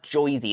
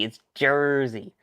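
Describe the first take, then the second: First: "Jersey" said as "Joisey" in a New York accent, with an oy vowel and a dropped r; Joisey pronunciation. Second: Said in the usual way. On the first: Shown as a demonstration. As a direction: say "Jersey" like "Joy-zee", the old New York way.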